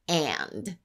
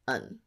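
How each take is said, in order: First: The word is said fully with its final d. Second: The word is said short and weak as un. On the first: "I'll first say the word in its full form" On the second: "then the reduced form"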